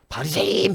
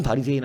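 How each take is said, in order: First: 바리새인 called out high and loud as a prompt; stressed name. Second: Said in the usual way. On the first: Shown as a demonstration. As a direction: fling out 바리새인 as a charged word. (바리새인을 높고 크게 강조해서) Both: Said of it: "바리새인 하니까".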